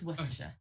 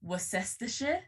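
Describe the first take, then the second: First: "Worcestershire" shortened to WUSS-tuh-shuh; usual shortened pronunciation. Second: "Worcestershire" in full, wor-SESS-ter-shuh; phonetic spelling pronunciation. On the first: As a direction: say "Worcestershire" short, swallowing the middle syllable. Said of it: "but it's just Worcestershire". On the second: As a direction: sound out every syllable of "Worcestershire", rising. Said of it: "It should technically phonetically be". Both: Shown as a demonstration.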